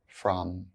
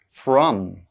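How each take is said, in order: First: The word is reduced with a weak vowel. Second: The word is said fully with its full vowel. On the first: "then their weak forms" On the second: "I'll say the strong forms of the words first"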